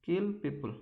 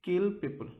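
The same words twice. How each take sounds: The two takes are said the same way.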